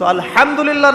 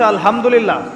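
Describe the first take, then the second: First: The h is harsh, from the middle throat. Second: The h is a soft, breathy h. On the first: All praise belongs to God. The speaker calls it right. "হা এর মাখরাজ ... কণ্ঠনালীর মাঝখান থেকে" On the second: All condemnation belongs to God. The speaker calls it wrong. "হায়ে হত্তির জায়গায় যদি হায়ে হাওয়াস পড়েন"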